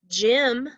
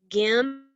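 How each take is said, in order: First: The word starts with a j sound. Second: The word starts with a hard g sound. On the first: The speaker calls it right. "But gym sounds right" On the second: The speaker calls it wrong. "Would this sound right if we said gim"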